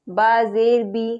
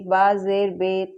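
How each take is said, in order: First: The final vowel sounds like 'ee'. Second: The final vowel sounds like 'ay'. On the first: The speaker calls it right. "मारूफ पढ़ना चाहिए" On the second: The speaker calls it wrong. "मजहूल बहुत से लोग इस तरीके से पढ़ते हैं"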